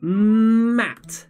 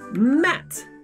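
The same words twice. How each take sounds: First: The word is said slowly and stretched out. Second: The word is said quickly and cut short. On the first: "you help me read it very slowly" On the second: "very fast"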